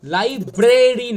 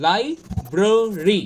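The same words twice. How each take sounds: First: Loud লাইব্রেরি as "lai-BRAY-ri"; full long "e" in লাইব্রেরি; slow, wrong-way লাইব্রেরি; common mispronunciation. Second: Slow লাইব্রেরি as "lai... brr... ree"; no "e" in the middle of লাইব্রেরি; spaced-out syllables of লাইব্রেরি; correct pronunciation. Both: Shown as a demonstration. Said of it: "লাইব্রেরি নয়".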